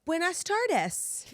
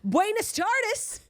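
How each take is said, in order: First: Buenas tardes, crisp Spanish vowels, slow; proper Spanish. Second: Put-on Buenas tardes in a heavy American accent, high and slow. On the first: Shown as a demonstration. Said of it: "So you would say". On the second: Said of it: "American accent you can think of".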